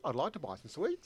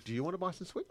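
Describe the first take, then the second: First: Statement with "sweets" lifted like a question; rising question inflection. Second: Said in the usual way. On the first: Shown as a demonstration. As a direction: let "sweets" rise at the end. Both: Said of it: "it sounds like a question".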